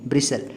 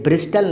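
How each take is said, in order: First: No t sound is heard in the middle. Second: A t sound is heard in the middle. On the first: The speaker calls it right. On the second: The speaker calls it wrong.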